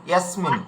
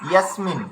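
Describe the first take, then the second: The two takes are said the same way.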